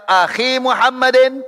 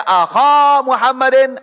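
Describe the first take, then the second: First: "akhi Muhammadin" with long i, high-pitched; changed ending. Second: "akha Muhammadin" with long a, high-pitched; changed ending. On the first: Teacher showing how endings change, "akhi" with long high i. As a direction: raise pitch and hold the i in "akhi". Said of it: "ada kali baca". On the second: Teacher showing how endings change, "akha" with long high a. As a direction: raise pitch and hold the a in "akha". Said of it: "Nanti ada kalanya baca". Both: Shown as a demonstration.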